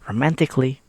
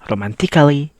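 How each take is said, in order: First: The A in the ending is silent. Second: The A in the ending is sounded. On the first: The speaker calls it right. "the letter A is silent" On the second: The speaker calls it wrong. "You not read it like romantically"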